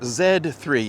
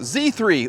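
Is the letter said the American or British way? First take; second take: British; American. First: The letter Z is said the British way. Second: The letter Z is said the American way.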